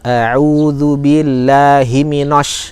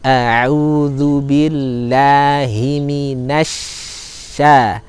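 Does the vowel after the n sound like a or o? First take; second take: o; a. First: The vowel after n is rounded like o. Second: The vowel after n is thin, like a. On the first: The speaker calls it wrong. "ini keliru" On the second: The speaker calls it right. "Tetap harus tipis bunyinya"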